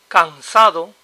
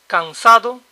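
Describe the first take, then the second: Both takes have the same delivery.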